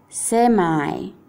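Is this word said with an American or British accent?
American. It is said with an American English accent. "inglese americano"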